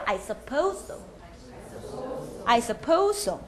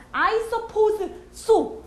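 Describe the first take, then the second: First: "I suppose so" with one S joining "suppose" and "so"; shared S sound. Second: "I suppose so" with "suppose" and "so" apart; laboured, word-by-word "I suppose so"; effortful separated S. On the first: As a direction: run "suppose so" together as "suppo-so". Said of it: "S 소리 같이 하기". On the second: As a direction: say both S sounds fully, breaking before "so". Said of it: "힘들어요". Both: Shown as a demonstration.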